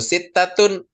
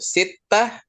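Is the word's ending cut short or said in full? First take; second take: full; cut short. First: The word ends in full, with -atun. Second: The word ends short, with a final h.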